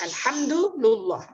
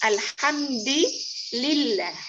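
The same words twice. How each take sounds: First: The vowel after the d is u. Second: The vowel after the d is i. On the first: The word is in the nominative case. "dibaca rofa ya, dibaca dhamma" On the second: The word is in the genitive case. "membaca jar huruf dalnya dengan kasrah"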